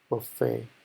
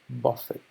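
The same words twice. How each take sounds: First: The stress is on the second syllable. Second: The stress is on the first syllable. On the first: A restaurant with a wide variety of food. "con una acentuación en la E" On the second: To slap someone. "El acento es más en la, en la parte de la U"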